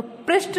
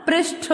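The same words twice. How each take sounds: First: "पृष्ठ" ending in a plain t, "presht"; wrong pronunciation. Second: "पृष्ठ" ending in aspirated "tho"; correct pronunciation. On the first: Teacher telling what it isn't, mispronounced. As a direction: say "पृष्ठ" without the breath after t. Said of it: "नहीं होता". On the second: Teacher telling children what it is, correctly pronounced. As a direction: release "पृष्ठ" as "presh-tho". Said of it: "होता है". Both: Shown as a demonstration.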